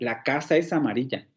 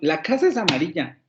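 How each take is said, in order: First: It is said with a plain statement intonation. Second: It is said with an exclamatory intonation. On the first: The speaker asserts that it is so. "lo puedo hacer como una afirmación" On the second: The speaker is surprised that it is so. "lo puedo hacer como una exclamación"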